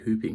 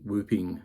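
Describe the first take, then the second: First: The word begins with an H sound. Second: The word begins with a W sound. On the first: "we say whooping like with an H sound" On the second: "I think whooping is also a pronunciation"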